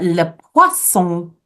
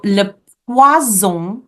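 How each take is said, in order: First: French "le poisson" with a crisp S, pwa-SON; S sound. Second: Slow French "le poison" with a buzzing Z; Z sound. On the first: Teacher contrasts fish with poison, S sound. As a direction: make the middle of "poisson" an S. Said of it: "is fish with an S sound". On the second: Teacher contrasts poison with fish, Z sound. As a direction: stretch "le poison", pwa-ZON with Z. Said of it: "with a Z sound". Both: Shown as a demonstration.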